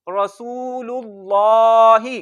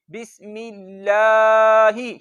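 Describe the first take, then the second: First: रसूलुल्लाही with a thick ल; full heavy ल in रसूलुल्लाही; heavy lam. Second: बिस्मिल्लाही with a light, thin ल, slow; thin lam. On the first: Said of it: "उसको भी मोटा पढ़ेंगे". (मोटा लाम) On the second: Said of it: "बारीक पढ़ेंगे". (बारीक लाम) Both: Shown as a demonstration.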